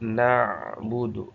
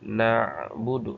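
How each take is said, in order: Both takes have the same delivery.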